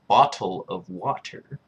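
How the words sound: The t sounds are fully pronounced. "strictly speaking, it's bottle of water... Pronunciating the T's"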